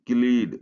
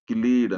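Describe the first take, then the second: No difference in how they are said.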